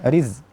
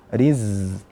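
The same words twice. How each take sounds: First: The z sound is cut off abruptly. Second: The z sound flows on continuously. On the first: The speaker calls it wrong. "bukan riz" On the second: The speaker calls it right. "suaranya mengalir"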